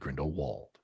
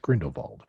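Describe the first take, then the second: First: The name is pronounced the English way. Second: The name is pronounced the German way. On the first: "English pronunciation would be" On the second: "if you use the German pronunciation"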